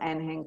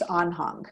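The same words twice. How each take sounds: First: The name is said with North American pronunciation. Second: The name is said with German pronunciation. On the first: "I'm pronouncing it the North American way" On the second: "in German, which is where it comes from, it's Anhang"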